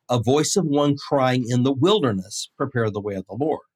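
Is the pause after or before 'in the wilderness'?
after. The pause comes after 'in the wilderness'.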